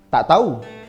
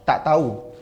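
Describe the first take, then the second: First: It is said with slight annoyance. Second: It is said plainly, without annoyance.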